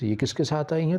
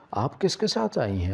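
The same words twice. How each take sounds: First: Mother throws the question back, pitched higher with a rising end; mother mocking her daughter's question, higher and rising; mocking echo. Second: Said in the usual way. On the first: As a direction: parrot her words back sharply. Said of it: "اماں نے کہا کہ سندس". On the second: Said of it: "میں نے کہا کہ آپ".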